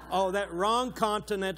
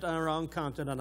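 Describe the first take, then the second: First: Louder, higher "Oh, that wrong continent" tossed off as a joke; jokey self-correction. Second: Said in the usual way. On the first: Real, not acted. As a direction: catch the slip with a laugh in the voice. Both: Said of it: "I'm sorry".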